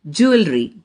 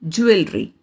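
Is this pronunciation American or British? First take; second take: American; British. First: It is said with an American accent. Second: It is said with a British accent. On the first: "American pronunciation" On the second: "British pronunciation"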